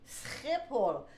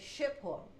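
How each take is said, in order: First: The sch is said the Dutch way. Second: The sch is said the foreign way. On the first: The speaker calls it right. "and then we say no, it's Schiphol" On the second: The speaker calls it wrong. "in many countries the S C H combination doesn't exist, So they say Schiphol"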